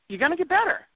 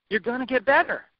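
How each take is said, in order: First: Higher, lifted promise rising at the end; higher encouragement. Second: Said in the usual way. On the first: Shown as a demonstration. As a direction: say it again much higher, rising hopefully.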